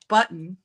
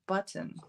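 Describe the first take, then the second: First: The last syllable ends with an 'in' sound. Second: The last syllable ends with an 'un' sound. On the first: The speaker calls it wrong. "I do in at the end instead of un" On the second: The speaker calls it right. "instead of un"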